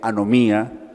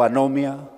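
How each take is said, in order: First: The stress falls on the syllable mi. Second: The stress falls on the syllable no. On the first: "si la pronuncia tildándole la i eh, final" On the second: "si la pronuncia anomia"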